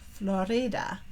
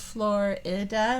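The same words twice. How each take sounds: First: It is said the Spanish way, I as E. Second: It is said with an English pronunciation. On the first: "they pronounce it the Spanish way, where the I makes the E sound" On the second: "We've kind of given it an English pronunciation"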